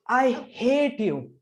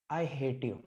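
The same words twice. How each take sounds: First: It is said with strong feeling and higher pitch. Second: It is said flatly with lower pitch. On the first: The speaker calls it right. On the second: The speaker calls it wrong.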